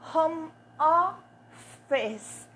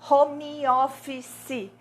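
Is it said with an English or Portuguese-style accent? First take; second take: English; Portuguese. First: It is said in an English accent, ending closed on M. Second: It is said in a Portuguese accent, with an added vowel. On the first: The speaker calls it right. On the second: The speaker calls it wrong.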